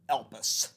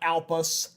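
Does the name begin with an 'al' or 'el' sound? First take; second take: el; al. First: The name begins with an 'el' sound. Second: The name begins with an 'al' sound. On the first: The speaker calls it right. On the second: The speaker calls it wrong. "not Alpus"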